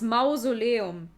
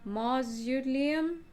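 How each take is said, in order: First: It is pronounced the German way, as written. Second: It is pronounced the English way, tentatively.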